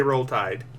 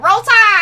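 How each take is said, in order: First: Soft, lower Roll Tide; muttered Roll Tide. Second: Loud, higher Roll Tide cheer. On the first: Host quietly says Roll Tide, softer and lower. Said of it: "I did say". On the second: Guest loudly cheers Roll Tide, louder and higher. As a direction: shout the Alabama chant. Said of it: "your little saying". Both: Retold or imitated.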